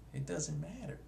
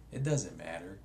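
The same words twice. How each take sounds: First: Same words pitched much higher and softer, rising at the end; a breezy high echo, trailing upward; higher, softer repeat. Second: Said in the usual way. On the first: Shown as a demonstration. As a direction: toss it off lightly up high.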